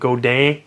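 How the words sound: The name is said with a French-Canadian pronunciation. The speaker calls it right. "it's a French-Canadian pronunciation apparently, so it's supposed to be pronounced like Godin"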